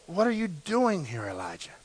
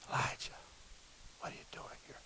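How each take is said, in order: First: It is said aloud, not whispered. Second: It is said in a whisper.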